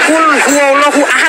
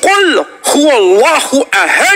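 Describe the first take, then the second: First: The final d stops flat with no echo. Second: The final d is released with a bouncing echo. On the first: The speaker calls it wrong. "Nggak boleh gitu" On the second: The speaker calls it right. "Harus kul huwallahu ahad"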